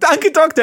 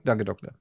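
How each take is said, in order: First: It is said in a cheerful, upbeat tone. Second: It is said in a glum, subdued tone. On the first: The patient leaves happy with good news. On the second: The patient leaves worried after bad news.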